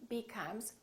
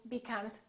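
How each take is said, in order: Both takes have the same delivery.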